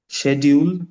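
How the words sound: It is said in an Indian accent. "which is an Indian accent"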